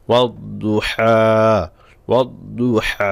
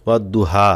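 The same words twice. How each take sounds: First: ওয়াদ দুহা slow, দ full and heavy with the tongue raised; heavy dad. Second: ওয়াদ দুহা with a light দ and a plain হা, not heavy; wrong thin reading. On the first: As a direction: read ওয়াদ দুহা slowly with a thick দদ. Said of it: "দদ মোটা হবে". (সঠিক উচ্চারণ: ওয়াদ দুহা ধীরে, দদ মোটা করে) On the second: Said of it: "ওয়াদ দুহা বললে এই হাও হলো না". (ভুল উচ্চারণ: ওয়াদ দুহা পাতলা করে) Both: Shown as a demonstration.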